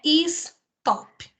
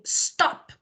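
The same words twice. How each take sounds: First: "stop" split in two as "is... top"; two syllables. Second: "stop" in one single burst, no vowel before the s; one syllable. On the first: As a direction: wrongly add an i before "stop" and break it, "is-top". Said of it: "Não tem duas sílabas". ("stop" errado, em duas sílabas, "is-top") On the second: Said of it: "é de uma vez". ("stop" de uma vez só, numa sílaba) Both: Shown as a demonstration.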